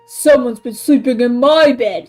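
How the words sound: It is said in a great big voice. A large father bear is speaking. "said Papa Bear in his great big voice"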